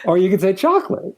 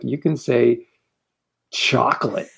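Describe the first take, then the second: First: It is said with pleasure. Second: It is said with disgust.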